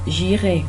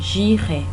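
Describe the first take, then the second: No difference in how they are said.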